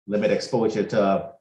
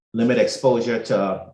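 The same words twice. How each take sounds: The two takes are said the same way.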